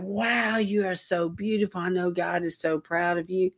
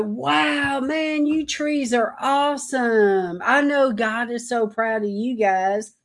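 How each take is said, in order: First: Softer, hushed admiration; soft tender awe. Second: Higher, slow, wide-eyed wonder; gushing over the trees like a proud parent; awed praise to trees. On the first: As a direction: murmur it like a gentle compliment. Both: Retold or imitated. Admiring trees while driving.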